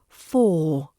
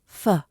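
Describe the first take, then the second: First: The word is said with a full vowel. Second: The word is said with a weak reduced vowel. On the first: "we've got for" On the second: "which becomes f. Keep it soft, no strong R either"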